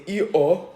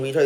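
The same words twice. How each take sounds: First: "E-O" with the R sounds left out, mock British; R sounds dropped. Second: Said in the usual way. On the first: Shown as a demonstration. Podcaster mocking British speech, "E-O" with no R sounds. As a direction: say "E-O" like a toddler who can't do R. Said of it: "they probably say". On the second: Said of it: "the letter R".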